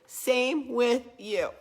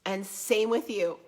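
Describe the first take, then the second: First: Same with you, drawn out slowly and lifted; slow emphatic repeat. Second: Said in the usual way. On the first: Real, not acted. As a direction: stretch "Same with you" slow, pressing each word.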